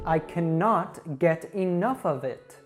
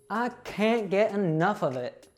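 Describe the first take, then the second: First: 'Cannot' is said in full. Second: 'Cannot' is contracted to 'can't'.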